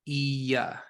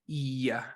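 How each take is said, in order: No difference in how they are said.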